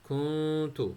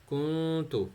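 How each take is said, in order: Both takes have the same delivery.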